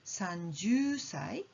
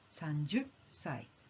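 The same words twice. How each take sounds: First: The middle vowel is held long and smooth. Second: The middle sound is cut short with a catch. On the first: "a prolonged sound of" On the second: "a jumping sound of"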